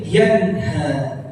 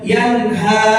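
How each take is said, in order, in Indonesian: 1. Kata ini berakhir lembut dengan vokal terbuka. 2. Kata ini berakhir dengan hentian glotal yang tajam. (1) "jadi dibacanya yanha" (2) "Jadi bukan yanha"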